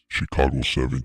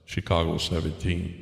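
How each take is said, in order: First: The voice is processed to sound deep and robotic. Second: The voice is processed to sound like a man. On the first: "I guess this is Darth Vader voice" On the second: "Now I do the male side"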